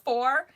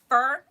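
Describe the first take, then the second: First: The word has a full 'or' vowel. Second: The word has a reduced 'er' vowel. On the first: "instead of for" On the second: "me and Spencer both say fur"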